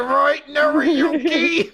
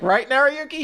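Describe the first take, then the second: First: High, slow pointed repeat; insistent drawn-out prompt. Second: High, quick nudging question; a light schoolgirl prompt; prompting girl voice. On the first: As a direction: drag the name out, pressing him. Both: Retold or imitated. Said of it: "She's like".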